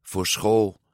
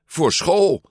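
First: Subdued, downcast echo; sad. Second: High, louder burst of urgency; sudden urgent realisation. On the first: Luca echoes Giulia about leaving for school, sadly. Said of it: "zei Luca droevig". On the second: Giulia suddenly remembers she must pack, blurting it out urgently. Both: A narrator's reading.

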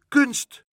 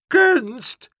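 First: Said in the usual way. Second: Very high, loud outraged shriek; scandalised high-pitched yell; shouting. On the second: A narrator's reading. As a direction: shout it back in disbelief. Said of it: "schreeuwde mevrouw Helderder".

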